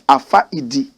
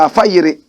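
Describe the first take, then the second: First: The name is said the plain non-native way. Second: The name is said the fluent native way. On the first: The speaker does not know the language. "If you don't know how to speak Dagbani, you might pronounce it ordinarily as" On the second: The speaker knows the language well. "we who speak the language fluently, we say"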